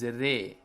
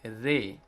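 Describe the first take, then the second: The two takes are said the same way.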